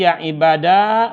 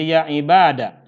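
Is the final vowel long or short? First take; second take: long; short. First: The final vowel is held long. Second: The final vowel is cut short. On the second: "ya difathahkan huruf terakhirnya, juga si alifnya tuh dibuang"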